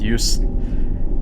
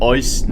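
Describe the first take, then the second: First: The first vowel sounds like 'yoo'. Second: The first vowel sounds like 'oy'. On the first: "and not" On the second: "E U is O E, so it's called"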